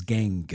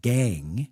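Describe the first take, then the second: First: Said in the usual way. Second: "gang" with a hard G sounded at the end; imitating Phil's G. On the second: Host mimicking Phil's ending G on "gang". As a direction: say "gang" closing on a clear G. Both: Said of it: "You pronounce the G on the end of words".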